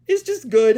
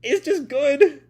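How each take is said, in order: First: Said in the usual way. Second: Gushing. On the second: Real, not acted. Gushing about the voice.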